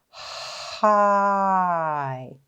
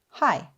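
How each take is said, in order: First: The sounds are drawn out slowly. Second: The word is said quickly as one unit. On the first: "Let's stretch them together" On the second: "Let's say it fast"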